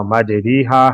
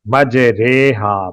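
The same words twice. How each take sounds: First: "مجریحا" as maj-REE-haa; long ee after the r in "مجریحا"; written "ri" reading. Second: "مجریحا" slowly as maj-RAY-haa; long ay after the r in "مجریحا"; correct majhool reading. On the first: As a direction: read "مجریحا" as spelt, with ree. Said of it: "لکھا ہوا". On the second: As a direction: model "مجریحا" with ray, not ree. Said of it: "ان کے نزدیک اس لفظ کو". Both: Shown as a demonstration.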